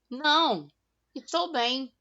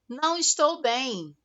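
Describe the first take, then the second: First: There is a pause after não. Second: It is said without a pause after não.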